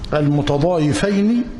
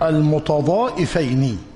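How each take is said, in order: First: The middle consonant is a y sound. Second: The middle consonant is a glottal stop. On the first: "بالياء" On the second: "وبالهمز"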